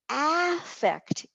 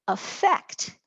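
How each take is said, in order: First: The stress is on the first syllable. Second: The stress is on the last syllable. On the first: It is a noun. "is a noun" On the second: It is a verb. "where the accent has shifted to the last syllable"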